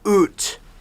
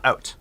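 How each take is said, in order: First: It is said with a Canadian accent. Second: It is said with an American accent.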